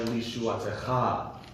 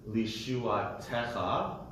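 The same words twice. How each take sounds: First: The stress is on the last syllable. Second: The stress is on the second-to-last syllable. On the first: "the accent is on the last syllable" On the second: "there was a meteg under the te of techa"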